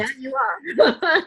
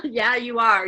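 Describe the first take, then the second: First: High, slow, strained yes, voice catching; choked-up agreement. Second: A laugh breaking into the repeat; laughing agreement. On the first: Agreeing with her coach, choked up and high. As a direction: fight back the tears on it. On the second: Repeating it to her coach with a laugh. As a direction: laugh it off the second time. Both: Real, not acted.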